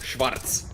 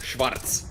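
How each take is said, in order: First: The name is pronounced the German way. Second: The name is pronounced the German way.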